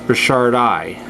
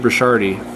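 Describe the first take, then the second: First: The name ends with an 'eye' sound. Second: The name ends with an 'ee' sound. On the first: The speaker calls it right. "It's Burchardi. ... it's an uh, I sound, a high I" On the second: The speaker calls it wrong. "A lot of people say Burchardi"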